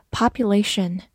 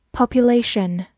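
First: "Population" said the American way, mouth wider open; American pronunciation. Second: Said in the usual way. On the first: Shown as a demonstration. Teacher models for learners an American, wide-mouthed "Population". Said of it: "美式发音， 口型比较大".

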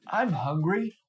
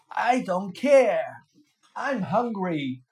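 First: A mild growl from a hungry genie; lightly growled demand. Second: Loud, slow genie shout; stubborn, loud genie refusal. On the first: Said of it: "he growled". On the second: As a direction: shout it down at the fisherman. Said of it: "shouted the genie". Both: A narrator's reading.

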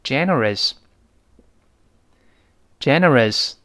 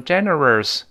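First: Generous read out clearly, no r before the final s; generous with a clean unstressed "-rəs" ending; correct model pronunciation. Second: Generous with the tongue wrongly curled before the final s; generous ending in a mistaken "-rers"; wrong r-coloured generous. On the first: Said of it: "跟老师大声读一遍". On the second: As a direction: add an extra r sound to the end of generous, "gene-rers". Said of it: "千万不能勾舌头". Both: Shown as a demonstration.

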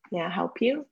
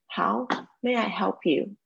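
First: Rising tune on "May I help you？", up at the end; uptalk. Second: Said in the usual way. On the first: Shown as a demonstration. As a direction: lift the pitch on "you？" at the end. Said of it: "记得这个语调，语调上扬". (“May I help you？”句尾语调上扬) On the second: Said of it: "记得这个语调".

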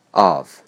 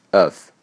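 First: Said in the usual way. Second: "of" reduced to a short schwa plus v; weak form. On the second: Shown as a demonstration. Teacher showing the reduced word, weak "of". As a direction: say "of" in its unstressed form. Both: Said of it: "并弱读为of".

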